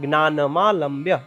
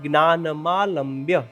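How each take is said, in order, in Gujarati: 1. આ બે શબ્દો ભેગા કરીને એક શબ્દ જેમ બોલાય છે. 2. આ બે શબ્દો ભેગા કરીને એક શબ્દ જેમ બોલાય છે.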